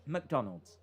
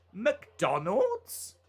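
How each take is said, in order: First: Said in the usual way. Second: "McDonald's" swung up high at the end; questioning MCDONALD'S. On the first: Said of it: "recorded every word normal". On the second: Shown as a demonstration. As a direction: say "McDonald's" as if asking. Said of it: "make it sound like a question".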